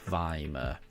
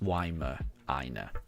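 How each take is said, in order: First: The word begins with a V sound. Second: The word begins with a W sound. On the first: The speaker calls it wrong. "which is why I was pronouncing it like Weimar" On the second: The speaker calls it right. "you don't pronounce the W as a V"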